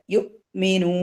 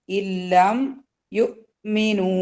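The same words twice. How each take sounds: First: യുഅ്മിനു with a clean stop on the അ്, quick; cut at the hamza. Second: ഇല്ലം യുഅ്മിനു recited very slowly, vowels drawn out; drawn-out recitation. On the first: Teacher showing the cut before the hamza, crisp. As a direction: break യുഅ്മിനു sharply at the hamza with sukun. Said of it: "cut ചെയ്തിട്ട് pronounce ചെയ്യാ". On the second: Teacher reciting the phrase slowly for the class, drawn out. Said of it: "cut ചെയ്യാ". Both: Shown as a demonstration.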